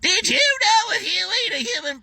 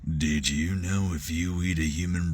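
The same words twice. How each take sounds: First: A wild, exaggerated hillbilly voice. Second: A low, quiet, creepy Southern voice. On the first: The speaker calls it wrong. "Like super hillbilly, and it was god awful" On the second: The speaker calls it right. "drop the voice a little bit lower and make him sound just very creepy"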